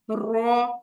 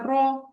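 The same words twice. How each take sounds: First: The r sound is trilled several times. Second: The r sound is a single tap. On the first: The speaker calls it wrong. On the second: The speaker calls it right.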